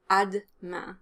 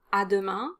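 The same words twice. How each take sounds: First: "à demain" as ad-main, E dropped. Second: "à demain" with the E of demain kept; full à demain. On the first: Teacher gives the shortened spoken form. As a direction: clip "à demain" down to two syllables. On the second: Teacher gives the full form of the word. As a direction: say "à demain" in three syllables. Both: Shown as a demonstration. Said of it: "You can definitely drop the E after the D sound".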